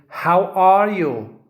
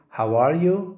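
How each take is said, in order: First: It is said more loudly. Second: It is said at normal loudness.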